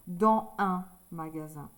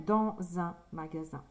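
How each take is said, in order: First: The s of dans stays silent before un. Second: The s of dans links as z to un. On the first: The speaker calls it wrong. "C'est plus joli que de dire dans un magasin" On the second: The speaker calls it right. "On va dire dans un magasin"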